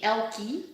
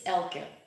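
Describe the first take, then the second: First: The name ends with an 'ee' sound. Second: The name ends with a short 'uh' sound. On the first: This is how most Americans say it. The speaker calls it wrong. "most Americans um, say Elkie" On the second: This is how it is said in Dutch. The speaker calls it right. "if you want to pronounce it correctly, it's Elke"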